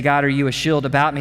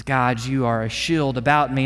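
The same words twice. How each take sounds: First: Quick questioning read with a lift at the end; hesitant question rising at the end; doubting question. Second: Firm falling statement, not a question; assured declaration ending down; confident statement. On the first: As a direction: ask it unsure, a bit faster. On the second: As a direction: declare it as settled fact, lower and steady. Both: Shown as a demonstration. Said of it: "Not only does he say".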